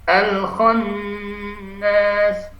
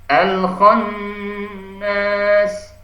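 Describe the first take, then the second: Both takes have the same delivery.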